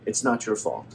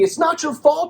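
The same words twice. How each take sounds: First: It is said softly and gently. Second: It is said harshly and impatiently.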